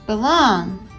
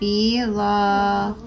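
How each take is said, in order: First: The word ends with an n sound. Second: The word ends without an n sound. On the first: The speaker calls it right. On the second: The speaker calls it wrong.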